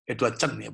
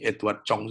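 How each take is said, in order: First: "Edward Chen" with the surname Chen, said as the correction; corrected name Chen. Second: "Edward Chong" said with the wrong surname, Chong; first says "Edward Chong", then corrects it; wrong name Chong. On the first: Pastor corrects the songwriter's name to "Edward Chen". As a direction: set "Edward Chen" right after the slip. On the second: Pastor first names the songwriter "Edward Chong" by mistake. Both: Shown as a demonstration. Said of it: "bukan Chong, Edward Chen".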